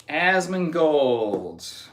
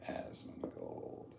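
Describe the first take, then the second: First: Drawn-out name. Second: Breathy hushed whisper of the name. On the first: Streamer slowly drawing out the name. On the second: Streamer whispering the name back to chat. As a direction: whisper it like a secret. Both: Acted.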